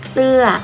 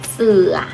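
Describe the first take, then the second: First: The word has a falling tone. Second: The word has a low tone. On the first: It means a piece of clothing. "เปลี่ยนวรรณยุกต์เป็นรูปโท" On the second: It no longer means an animal. "ใส่รูปไม้เอกลงไป"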